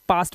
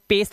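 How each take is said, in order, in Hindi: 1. स्वर 'ah' जैसा सुनाई देता है, जैसे फ़ादर में। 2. स्वर 'ay' जैसा सुनाई देता है, जैसे पेस्ट में। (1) "इसे पास्ट पढ़ते हैं" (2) "इसे पेस्ट नहीं पढ़ेंगे"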